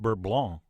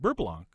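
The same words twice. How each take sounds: First: It is said with a French accent. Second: It is said with an American accent.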